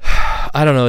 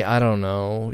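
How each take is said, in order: First: A sigh, then a louder, higher I don't know; sighing uncertainty. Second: Said in the usual way. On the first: Real, not acted. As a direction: sigh it out, unsure and heavy. Wondering about mom's age.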